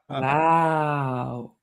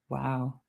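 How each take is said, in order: First: The word is drawn out very slowly. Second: The word is said at a normal speed.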